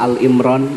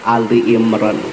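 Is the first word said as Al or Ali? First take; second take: Al; Ali. First: The first part is the short syllable al. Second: The first part is the two-syllable word ali. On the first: The speaker calls it wrong. "tidak boleh dibaca Al-Imran" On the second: The speaker calls it right. "yang benar adalah Ali Imran"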